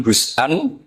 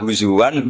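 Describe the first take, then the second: First: "husan" as huz-'an, two syllables; hamzah form. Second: "huzuan" with gliding w, huzu-wan; hamzah softened to wawu. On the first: Teacher compares readings, hamzah catch in husan. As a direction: stop after huz, catch, then an in "husan". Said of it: "ketika jadi husan ini". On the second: Teacher compares readings, wawu glide in huzuan. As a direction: glide into the last syllable of "huzuan". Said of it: "hamzah ditakhfif jadi wawu". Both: Shown as a demonstration.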